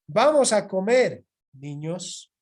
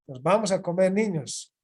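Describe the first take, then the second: First: There is a pause before "niños". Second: It runs straight on without a pause.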